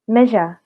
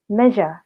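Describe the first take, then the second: Both takes have the same delivery.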